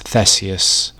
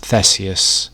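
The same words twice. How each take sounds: First: The name is given its English pronunciation. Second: The same.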